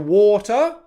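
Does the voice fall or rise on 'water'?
rise. The pitch rises on the word. The speaker has not finished speaking. "I'd use an upwards intonation"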